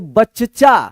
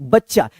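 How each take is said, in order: First: The first 'ch' is said as a full syllable. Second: The first 'ch' is clipped short, joined to the next. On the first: The speaker calls it wrong. "अगर आप पूरा च लगा देंगे" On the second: The speaker calls it right. "यानी च जल्दी उच्चारण हो जाएगा"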